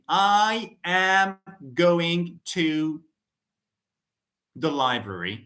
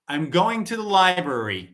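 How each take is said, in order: First: Each word is said separately, without linking. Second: The words run together, linked into one flow. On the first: "instead of saying" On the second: "you would hear native speakers say"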